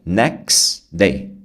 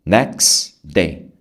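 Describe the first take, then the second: No difference in how they are said.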